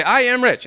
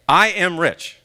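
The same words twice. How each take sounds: First: Higher, proud declaration of "I am rich"; confident affirmation. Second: Said in the usual way. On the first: Shown as a demonstration. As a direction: announce it with conviction. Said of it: "So you say". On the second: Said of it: "is often called an affirmation".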